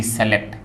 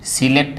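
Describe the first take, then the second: First: सेलेक्ट opening with से; first vowel e-like in सेलेक्ट; common mispronunciation. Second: सिलेक्ट starting with short सि; short i in the first syllable of सिलेक्ट; correct pronunciation. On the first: Teacher warns against this form, common mispronunciation. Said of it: "न कि". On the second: Teacher repeats the right form, correct pronunciation. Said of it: "इसका सही उच्चारण क्या है". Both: Shown as a demonstration.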